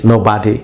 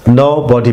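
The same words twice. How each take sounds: First: Nobody with an American ah, NO-BAH-DI; slow American nobody, open ah in the middle; American pronunciation. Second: Nobody with a rounded British o, NO-BO-DI; slow British nobody, rounded middle o; British pronunciation. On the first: Teacher demonstrates the American nobody to students, ah sound. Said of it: "it is American pronunciation". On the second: Teacher demonstrates the British nobody to students, rounded o. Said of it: "British English". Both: Shown as a demonstration.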